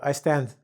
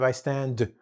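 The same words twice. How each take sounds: First: The final consonant sounds like a soft th. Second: The final consonant sounds like a clear d. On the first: The speaker calls it wrong. "for many Spanish people, the D sound is a th" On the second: The speaker calls it right. "instead of"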